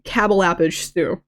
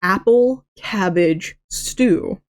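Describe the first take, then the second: First: Cabble appage stew, with the c and p sounds swapped; mock flub of cabble appage stew; tongue-twisted flub. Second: Apple cabbage stew, each word slow and careful; said correctly. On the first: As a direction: trip over cabble appage stew on purpose. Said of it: "I kept messing up saying". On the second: Shown as a demonstration. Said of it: "I could not say".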